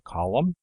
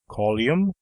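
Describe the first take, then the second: First: No 'y' sound is added in the second syllable. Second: A 'y' sound is added in the second syllable. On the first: The speaker calls it right. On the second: The speaker calls it wrong.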